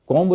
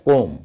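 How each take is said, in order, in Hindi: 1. अंतिम b ध्वनि उच्चरित होती है। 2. अंतिम b ध्वनि मौन है। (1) "कॉम्ब नहीं है" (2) "वो है कोम"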